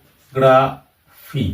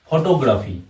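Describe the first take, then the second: First: photography slowly in four separate syllables. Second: Said in the usual way. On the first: Shown as a demonstration. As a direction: break photography up, a clear pause between syllables. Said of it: "তাহলে এখানে একটা, দুটা, তিনটা". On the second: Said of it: "এখানেও ঠিক".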